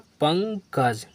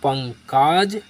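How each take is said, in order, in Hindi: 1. k के बाद वाला स्वर छोटा 'a' है। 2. k के बाद वाला स्वर लंबा 'aa' है।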